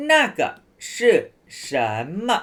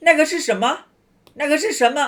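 First: 那个 是 什 么 with a pause after each word; slow and separated. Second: 那个是什么 run together quickly and pitched higher; fast native speed. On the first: Teacher showing students the slow version nobody really uses. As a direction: spell it out word by word. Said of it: "แต่เขาพูดช้างี้ไหม". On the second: Teacher showing students how Chinese people really say it, fast. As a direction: blur it into one quick phrase. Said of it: "ไม่ เขาก็จะพูดว่า". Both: Shown as a demonstration.

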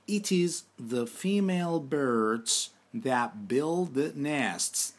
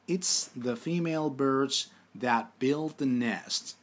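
First: Slow, deliberate English sentence read for students; careful teacher dictation. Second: Slow, careful repeat of the sentence; steady dictation pace. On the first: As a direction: spell it out slowly so learners can repeat. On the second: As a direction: read it again slowly for the class. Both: Shown as a demonstration. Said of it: "Tekrar edelim".

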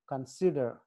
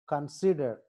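The two takes are said the same way.

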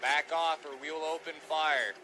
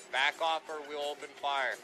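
Both takes have the same delivery.

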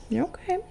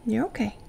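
First: High, gentle coo to a pet; soothing pet voice. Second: Soothing. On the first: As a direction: reassure the dog sweetly. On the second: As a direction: settle the dog gently. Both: Real, not acted. Soothing the dog.

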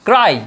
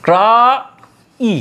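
First: Said in the usual way. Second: ক্রা, a long pause, then ই; ক্রাই pulled apart as ক্রা - ই; broken into sounds. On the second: Shown as a demonstration. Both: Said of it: "ক্রাইকে যদি আমরা ভাঙি".

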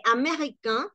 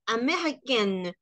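First: "américain" with nasal ending, no final n; masculine américain. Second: "américaine" ending in a clear n, slower; feminine américaine. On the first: Teacher modelling masculine nationality for students. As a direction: say "américain" open, nasal at end. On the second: Teacher modelling feminine nationality for students. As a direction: pronounce the n of "américaine". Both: Shown as a demonstration. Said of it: "en femenino y en masculino".

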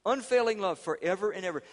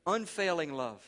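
First: Loud, high preacher's proclamation; fervent sermon declaration, louder; proclaiming. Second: Said in the usual way. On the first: Shown as a demonstration. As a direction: ring it out to the congregation. Proclaims unfailing love.

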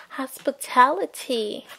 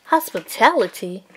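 First: Said in the usual way. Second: Incredulous. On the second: Acted. Ken repeats the word, baffled.

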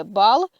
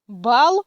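First: Said in the usual way. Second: French "Бал", rising and loud; French pronunciation. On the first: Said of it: "так і буде". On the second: Shown as a demonstration. Teacher reads out French example "Бал" to learners, French pronunciation. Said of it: "я буду читати назву літер і приклади".

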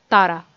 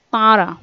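First: "Tara" with a purely oral first a, loud; Tara without nasalization. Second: "Tara" with a nasalized first vowel, loud. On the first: Teacher models the informal word for they, "Tara" un-nasalized. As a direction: say "Tara" with no nasal sound in the vowels. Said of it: "There is no nasalization mark here". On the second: Teacher models the formal word for they, "Tara" nasalized. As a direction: say "Tara" with the first a through the nose. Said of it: "nasalization mark, and it will be pronounced as". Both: Shown as a demonstration.

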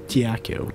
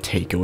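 First: "taco" said as tee-YA-koh; insisted pronunciation. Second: "taco" said as TAY-koh; rejected pronunciation. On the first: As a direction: say "taco" with a y-glide after the T. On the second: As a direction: say "taco" with an AY in the first syllable. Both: Shown as a demonstration. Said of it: "It's not taco, it's taco".

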